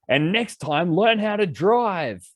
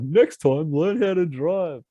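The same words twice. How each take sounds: First: High, slow, sarcastic final jab; parting shot. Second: High, slow mocking echo; mocking quote. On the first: Retold or imitated. Telling the cab driver off, high drawn-out jab. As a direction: deliver the last line before slamming the door. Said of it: "being like". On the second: Friends mocking his tirade, high drawn-out mockery. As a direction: lampoon the line the way friends tease. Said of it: "my friends make fun of me".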